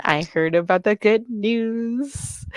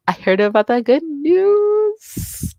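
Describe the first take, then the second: First: Said in the usual way. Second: High, slow sing-song tease. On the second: Shown as a demonstration. Streamer sing-songs the good news hint to her friend. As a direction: lift it up high and sing it slowly.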